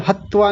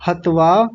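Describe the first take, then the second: First: "हत्वा" with त held twice; wrong doubled consonant. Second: "हत्वा" with a single त; correct single consonant. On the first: Teacher warning students of the error, doubled त in "हत्वा". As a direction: say "हत्वा" as hat-twaa. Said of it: "नहीं". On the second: Teacher giving the right form, single त in "हत्वा". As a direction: say "हत्वा" as hat-vaa. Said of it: "ध्यान दीजिए". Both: Shown as a demonstration.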